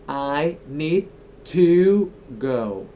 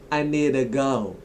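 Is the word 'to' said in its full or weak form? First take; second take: full; weak. First: 'To' is said in its full form. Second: 'To' is reduced to a weak 'ta'. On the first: "when you say it one by one" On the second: "in a full sentence, you often say it like ta"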